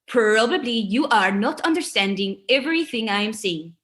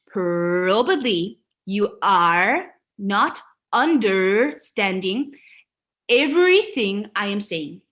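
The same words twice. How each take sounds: First: It is said with a light foreign accent. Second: It is said with a heavy foreign accent.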